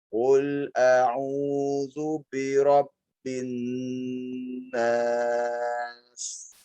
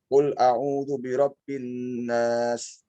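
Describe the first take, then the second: First: The long vowels are drawn out for double length. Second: The long vowels are held only briefly. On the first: "dilipat ketukannya ... jadi lebih panjang" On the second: "Kalau tadi dibaca"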